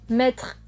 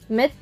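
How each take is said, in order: First: The word ends with an 'r' sound. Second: The word ends without an 'r' sound. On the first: This is the standard form. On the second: This is the regional form.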